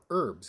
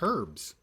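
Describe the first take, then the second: First: It is said the American way. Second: It is said the non-American way.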